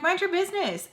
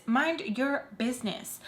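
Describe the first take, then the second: First: High-pitched, sassy telling-off; sharp rebuke. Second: Deliberate rebuke. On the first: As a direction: snap it high in one quick burst. Retells snapping at Sam, first take. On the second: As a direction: spell it out slowly, word by word. Repeats it slowly and deliberately. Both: Retold or imitated.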